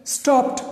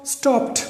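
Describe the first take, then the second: No difference in how they are said.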